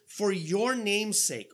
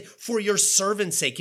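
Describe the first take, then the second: First: "name's" drawn out slowly; slow right down to set off "name's"; stress on NAME'S. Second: "servant's" punched out louder; stress on SERVANT'S. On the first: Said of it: "but it's not what he says". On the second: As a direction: lean loudly on "servant's" as the wrong word. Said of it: "Notice he doesn't even say". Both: Shown as a demonstration.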